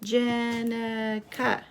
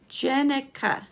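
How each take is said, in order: First: Jenica stretched slowly over three beats; slow, even Jenica for counting; syllable by syllable. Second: Said in the usual way. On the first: Shown as a demonstration. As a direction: draw out each syllable of Jenica. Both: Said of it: "Count the syllables".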